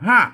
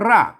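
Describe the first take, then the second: First: The word begins with an h sound. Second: The word begins with an r sound. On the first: This is the local Northern pronunciation. "บ้านเฮามันก็หากนะครับ" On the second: This is the Central Thai pronunciation. "ภาษาไทยมันรากนะครับ"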